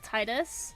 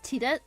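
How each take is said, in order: First: The name is said as it is spelled. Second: The name is said with different sounds. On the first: This is how the name looks when read. "when you see the name Titus" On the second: This is how the name is actually spoken. "but when it's spoken, it's Tidet"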